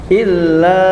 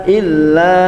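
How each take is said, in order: No difference in how they are said.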